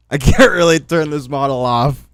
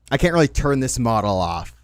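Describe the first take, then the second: First: Laughing through the words. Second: Said in the usual way. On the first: Real, not acted.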